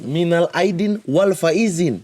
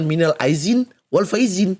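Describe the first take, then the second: First: The second word has a d sound. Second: The second word has a z sound. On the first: The speaker calls it right. "minal aidin wal faizin, bukan" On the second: The speaker calls it wrong. "bukan minal aizin wal faizin"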